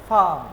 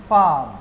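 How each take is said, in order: Both takes have the same delivery.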